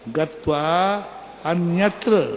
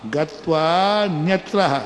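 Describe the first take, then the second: First: The words are separated, keeping the initial vowel. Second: The words run together, dropping the initial vowel. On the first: The words are split apart to explain the meaning. "अब अर्थ निकालते हैं।" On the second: This is how the verse is recited. "उच्चारण ऐसे ही करना।"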